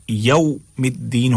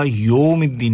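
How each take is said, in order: First: "یوم" as yaum, a gliding into oo; correct au glide. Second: "یوم" as yom with a straight o; wrong o vowel. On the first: Teacher confirming the right reading, au glide. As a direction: say "یوم الدین" with a yau start. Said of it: "ہوگا". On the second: Teacher showing what is wrong, plain o. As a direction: say "یوم الدین" with no glide. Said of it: "نہیں ہوگا". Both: Shown as a demonstration.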